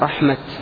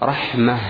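First: The word ends with a t sound. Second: The word ends with an h sound. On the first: This is the original form before the substitution. "الكلمة قبل الإبدال رحمة" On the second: This is the form used when pausing on the word. "الكلمة بعد الإبدال رحمة عند الوقف"

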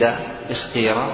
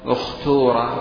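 First: The middle vowel is a pure i sound. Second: The middle vowel is a pure u sound. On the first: "بالكسر الخالص" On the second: "بضم الهمزة والثالث"

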